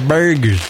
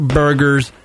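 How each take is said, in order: First: Burgers as "BAIR-guhz", flat-out East Coast dropped R; East Coast accent. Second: Said in the usual way. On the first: Shown as a demonstration. Host correcting plain burgers to East Coast accent. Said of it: "say it like the East Coast people". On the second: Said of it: "Not burgers".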